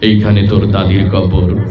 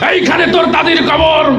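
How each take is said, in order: First: It is recited in a skilled, expressive poetic style. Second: It is declaimed like a loud political speech. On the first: The speaker calls it right. "Original এইভাবে" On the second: The speaker calls it wrong. "নেতাদের তো সবসময় বক্তব্য দিয়ে অভ্যাস"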